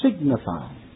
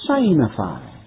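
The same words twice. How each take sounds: First: The first part sounds like 'sig'. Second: The first part sounds like the word 'sign'.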